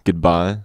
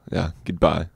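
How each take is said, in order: First: Goodbye with a rising, asking tune; questioning goodbye. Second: Said in the usual way. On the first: Shown as a demonstration. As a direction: try out the word Goodbye, unsure, tune lifting at the end. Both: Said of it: "How do you English say, eh?".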